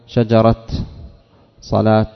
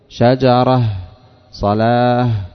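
First: The words end with a t sound. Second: The words end with an h sound. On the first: "يجوز في لغة أن تقول شجرة صلاة تقف عليها بالتاء" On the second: "تقف عليها بالهاء في الأرجح"

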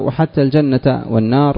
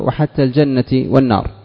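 First: Al-janna ends with an a vowel. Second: Al-janna ends with an i vowel. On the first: The phrase is joined to the object pronoun. "والنصب حتى الجنة معطوف على الضمير في رأيته" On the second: The phrase is joined to the word 'thing' as written. "ولفظها مجرور"

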